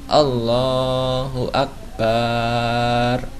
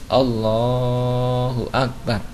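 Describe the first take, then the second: First: The vowel after the b is drawn out long. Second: The vowel after the b is kept short. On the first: The speaker calls it wrong. "Jadi dilarang" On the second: The speaker calls it right.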